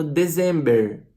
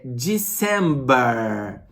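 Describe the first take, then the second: First: December com "dezẽmber" aportuguesado, R final forte; imitando o erro. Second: December lento como "dissemba", sem R final; pronúncia correta. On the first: Retold or imitated. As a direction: imite o aluno que lê December em português. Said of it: "Tem gente falando December". (professor imita o aluno errando: December aportuguesado) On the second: Shown as a demonstration. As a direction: diga December devagar, à americana. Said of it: "Não é, é December". (professor corrige: December lento, à americana)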